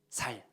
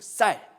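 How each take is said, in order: First: The first consonant is plain, not tense. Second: The first consonant is tense, not plain. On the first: The speaker calls it wrong. "저희 아버지는 뭐라고 하냐면 살 이렇게 발음합니다" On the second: The speaker calls it right. "아니 살 말고 쌀"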